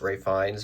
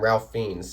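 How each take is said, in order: First: The first name sounds like Rafe, rhyming with safe. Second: The first name sounds like Ralph, with an L. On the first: This is how many others say the name. "a lot of people are going to argue it's his name is pronounced" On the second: This is how the speaker has long said it. "for years I've been calling him"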